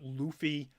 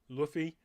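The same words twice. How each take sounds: First: The first vowel is drawn out long. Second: The first vowel is kept short. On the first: This is how many other people say it. "I know people like to pronounce it" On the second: This is the speaker's own preferred way. "I'm gonna go with the short"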